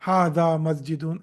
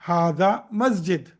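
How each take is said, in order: First: The last word ends with an added -un sound. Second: The last word ends bare, without -un. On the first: The full grammatical ending is shown. The speaker calls it wrong. "I wouldn't say" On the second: The ending is dropped at a pause. The speaker calls it right. "I would say"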